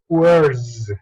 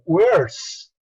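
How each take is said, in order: First: The word ends with a buzzing z sound. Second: The word ends with a hissing s sound. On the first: The speaker calls it right. "con el sonido Z. Entonces la pronunciación aquí correcta es words" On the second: The speaker calls it wrong. "Ya no vas a pronunciarlo como words. Estaría muy mal pronunciado"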